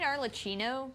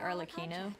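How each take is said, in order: First: The middle consonant sounds like 'ch' in church. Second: The middle consonant sounds like a hard 'k'. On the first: The speaker calls it wrong. "I keep saying Arlecchino because, you know, there's an H there" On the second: The speaker calls it right. "But it's really Arlecchino"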